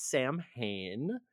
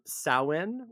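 First: Samhain said as SAM-hayn, as spelt; mispronunciation. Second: Samhain said as SOW-in; correct Gaelic pronunciation. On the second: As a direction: say Samhain slowly as "SOW-in", silent m. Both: Shown as a demonstration. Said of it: "which is not pronounced Samhain".

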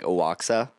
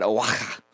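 First: Spelling pronunciation of Oaxaca, oh-wok-sa; Oaxaca as spelled. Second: Unsure attempt at saying Oaxaca; attempted Oaxaca pronunciation. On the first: Shown as a demonstration. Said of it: "it's spelled like Oaxaca". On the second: Real, not acted. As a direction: try Oaxaca as a native name. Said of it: "How do you say it?".

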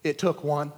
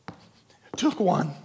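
First: Said in the usual way. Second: Drawn out, each word weighed; slow right down to drive it home; slow and deliberate. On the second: Shown as a demonstration.

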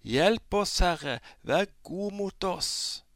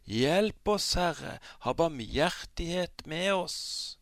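First: High, loud, desperate shout; crying out even louder. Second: High, loud desperate plea; crying out for help. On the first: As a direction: yell out, pleading harder. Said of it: "ropte de bare enda høyere". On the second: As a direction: call out to be rescued. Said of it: "ropte de ut og sa". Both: Acted.

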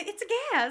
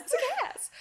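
First: Laughing repeat. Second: Squeaky high imitation of the line; high mock quote. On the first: Retold or imitated. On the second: Mimicking the film character in a high voice. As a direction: pitch it way up, playful.

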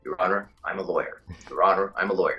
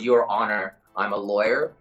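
First: Lower, masculine American voice; American accent. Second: Lightly dropped American voice; American accent. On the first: Actor drills phrase to get into the role, deep American accent. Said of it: "an octave and it becomes very masculine". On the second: Actor quotes his warm-up phrase to interviewer, American accent. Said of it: "there's a phrase called". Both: Shown as a demonstration.

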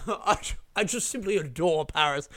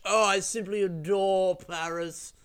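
First: Pretentious posh traveller. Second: Slow, higher, hammed-up snob voice; snobby rich traveller. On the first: Pretend. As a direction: play a smug rich tourist, lightly. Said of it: "What a fucking pretentious thing to say". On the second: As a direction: lay the snobbery on thick, slowly.

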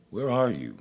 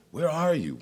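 First: Raised, calling voice of God. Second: Much higher, louder cry of God. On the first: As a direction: call out searchingly. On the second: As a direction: cry out desperately searching. God calling again, higher. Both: Acted.

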